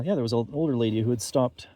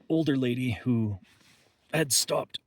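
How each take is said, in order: First: Said in the usual way. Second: Strained, catching voice; having a back spasm. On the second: Real, not acted. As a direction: push through the sudden pain. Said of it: "Sorry, back spasm".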